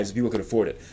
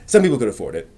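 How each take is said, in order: First: Said in the usual way. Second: Some pushed up and louder as a correction; correcting himself by stressing Some. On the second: Real, not acted. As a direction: lean on the word Some to correct yourself.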